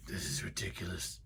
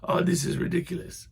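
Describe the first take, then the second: First: A hint of an annoyed man; muttered mock complaint. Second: High, breathy put-upon sigh; a half-hearted impression of an annoyed man; mock exasperation, not a real impression; lightly voiced exasperated man. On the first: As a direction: grumble it to yourself. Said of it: "he was just like". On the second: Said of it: "it sounded kind of like".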